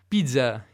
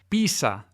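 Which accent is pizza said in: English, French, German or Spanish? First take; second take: French; Spanish. First: It is said with a French accent. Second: It is said with a Spanish accent. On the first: "in francese" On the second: "da alcuni, non tutti, parlanti di spagnolo"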